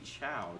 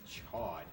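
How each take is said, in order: First: The name ends on an open vowel. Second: The name ends with a clear 'd' sound. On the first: This follows the French origin of the word. The speaker calls it right. "it's a French word, so it should be Chow" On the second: This is how the show's dub says it. The speaker calls it wrong. "in the anime it's Chod"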